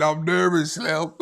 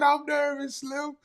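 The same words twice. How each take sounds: First: Said in the usual way. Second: High mock-nervous voice; mock nervous squeak. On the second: Teasing a nervous viewer by parroting him in a high mock-nervous voice. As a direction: squeak it out like a jittery fan. Repeats comment in mocking voice.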